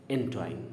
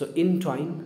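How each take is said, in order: First: A quicker, lighter entwine; second correct form. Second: Entwine said with the stress landing on -twine; first correct form. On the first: Teacher gives the other accepted entwine. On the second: Teacher models entwine for students. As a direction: say entwine clearly and carefully, leaning on twine. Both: Shown as a demonstration. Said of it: "both are correct".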